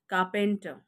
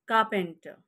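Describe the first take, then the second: Both takes have the same delivery.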